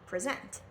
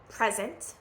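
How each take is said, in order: First: The stress is on the second syllable. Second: The stress is on the first syllable. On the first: It is used as a verb. "verbs, you're going to stress the second syllable" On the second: It is used as a noun. "nouns, you're going to always stress the first syllable"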